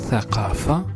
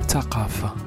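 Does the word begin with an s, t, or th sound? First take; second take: th; t. First: The word begins with a th sound. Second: The word begins with a t sound. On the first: This is the classical form. "Tha devient Ta" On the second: This is the Moroccan form. "Tha devient Ta"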